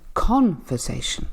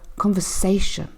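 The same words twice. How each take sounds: First: The stress is not on the third syllable. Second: The stress is on the third syllable. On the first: The speaker calls it wrong. "I'm not saying conversation, because that wouldn't make sense" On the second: The speaker calls it right. "the third syllable here is stressed"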